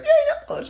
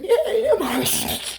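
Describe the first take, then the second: First: Very high, squealy mock cheer, laughing on "nail polish"; girls cheering. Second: Slow, drawn-out, high "Yay, nail polish"; deadpan mock cheer. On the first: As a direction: squeal "Yay" like excited girls. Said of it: "All the girls like". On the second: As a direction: drag out the cheer sarcastically. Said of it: "I'm like".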